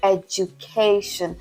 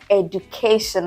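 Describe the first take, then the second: First: It is pronounced without the common Nigerian pattern. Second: It is pronounced the way Nigerians commonly say it. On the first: The speaker calls it right. "it is edu, education" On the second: The speaker calls it wrong. "It is not education, like we like to say in Nigeria"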